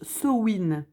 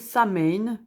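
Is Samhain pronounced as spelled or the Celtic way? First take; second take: Celtic way; as spelled. First: The word is said in its Celtic pronunciation. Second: The word is read out as it is spelled. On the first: The speaker calls it right. "vu que ça vient du celtique, en fait, ça se prononce Samhain" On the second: The speaker calls it wrong. "moi aussi, je prononçais Samhain, toujours prononcé comme ça"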